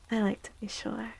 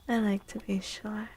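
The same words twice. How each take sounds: The two takes are said the same way.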